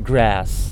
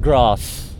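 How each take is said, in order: First: The word is said with a stretched American vowel. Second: The word is said with a British accent. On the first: "in American accent, you have to extend the A" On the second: "It's like grass in British accent"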